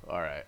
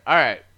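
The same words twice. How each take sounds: First: Said in the usual way. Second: Loud. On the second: Real, not acted.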